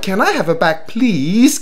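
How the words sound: The pitch moves up and down in a friendly way. It comes across as a courteous request. The speaker calls it right. "你要有啲抑揚頓挫"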